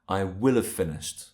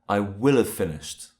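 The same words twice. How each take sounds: First: 'Will' is said in full and sounds strong. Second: 'Will' is said in full and sounds strong.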